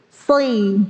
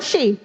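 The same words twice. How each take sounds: First: "Si" with a thick s, not sh; heavy sod. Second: "shi" with a hushing sh; sh for sod. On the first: ("Si" dengan sod tebal) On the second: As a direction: say the mistaken "shi". ("shi" dengan bunyi syin) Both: Shown as a demonstration. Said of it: "bukan shi".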